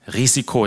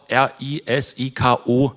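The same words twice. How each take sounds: First: Said in the usual way. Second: R I S I K O spelled slowly letter by letter. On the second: Shown as a demonstration. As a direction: spell R I S I K O out, one slow letter at a time. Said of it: "wird auch R I S I K O buchstabiert".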